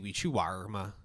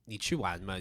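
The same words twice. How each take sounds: First: It is said with a curled R sound added. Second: It is said plainly, without an added R sound. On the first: "they have like the R at the end" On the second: "instead of saying"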